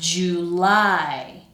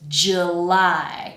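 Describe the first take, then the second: First: The first vowel is a full oo sound. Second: The first vowel is weak and reduced. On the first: "we're pronouncing that oo sound fully" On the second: "the way that I pronounce it"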